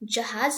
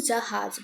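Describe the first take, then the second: First: The last consonant is a plain j sound. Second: The last consonant is a hissing z sound. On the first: The speaker calls it wrong. "जहाज नहीं बोलेंगे" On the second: The speaker calls it right. "जहाज बोलेंगे"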